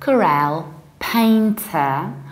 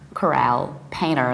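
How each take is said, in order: First: The t in painter is pronounced. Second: The t in painter is dropped.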